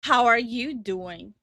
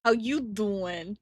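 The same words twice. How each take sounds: First: "How are you doing", slow, with ARE fully sounded; fully pronounced phrase. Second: "How you doing", ARE dropped, DOING drawn out slowly; slow drawled "How you doing" with a rising end; casual American greeting. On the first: Streamer repeats after coach, careful and complete. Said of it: "Say, "How are you doing?". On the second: Streamer copies coach's American slang, slow and amused. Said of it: "She's American". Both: Shown as a demonstration.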